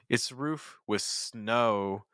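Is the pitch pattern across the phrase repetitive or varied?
varied. Roof rises, then snow drops lower with fall-rise. The contrast keeps the listener engaged. The speaker calls it right. "It's almost like a fall rise intonation"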